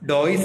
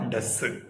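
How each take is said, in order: First: It is said as two syllables, 'doy-is'. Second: It is said as one short syllable, 'duz'. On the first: The speaker calls it wrong. "ഡോയിസ് അല്ല" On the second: The speaker calls it right.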